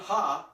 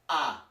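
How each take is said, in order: First: The word begins with an audible h sound. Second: The word begins directly with the vowel sound. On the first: The speaker calls it wrong. "it's not ha" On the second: The speaker calls it right. "The H is silent"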